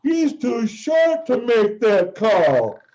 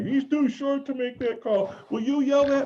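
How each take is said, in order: First: Stadium yell. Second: High, pitched-up voice of a small woman fan asking a favour; lightly voiced woman fan. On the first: Retold or imitated. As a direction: bellow it slowly so the whole arena hears. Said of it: "and I yell". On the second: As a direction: voice the tiny lady fan up high, eager.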